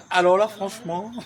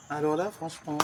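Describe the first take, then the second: First: Louder, with the tune rising on "là"; "Alors là, franchement" thrown out loud with "là" rising; emphatic repeat. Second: Said in the usual way. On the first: Shown as a demonstration. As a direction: punch "là" hard and let it climb.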